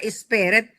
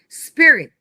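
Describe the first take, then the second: First: An extra vowel is added before the s. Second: The word starts directly with the s sound. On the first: The speaker calls it wrong. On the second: The speaker calls it right.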